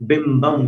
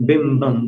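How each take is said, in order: No difference in how they are said.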